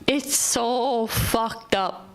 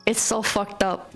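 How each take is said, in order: First: Very slow, each word stretched; drawn-out repeat. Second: Said in the usual way. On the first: Shown as a demonstration. To viewers about rude drivers, slowly drawn-out lament. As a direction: let it sink in, dragging every word.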